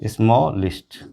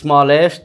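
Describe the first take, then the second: First: The ending is said with a reduced 'ist' vowel. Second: The ending is said with a full 'est' vowel. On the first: The speaker calls it right. "इसी तरह स्मॉलिस्ट" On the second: The speaker calls it wrong. "इस तरह नहीं करना चाहिए ... ये गलत है"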